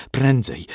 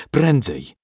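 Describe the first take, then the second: First: A quick urgent push; will the horse on; first urgent plea; urgent thought. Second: The repeat pressed harder and louder; more urgent thought. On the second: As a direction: drive the horse on harder. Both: A narrator's reading. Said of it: "Marcin myślał tylko".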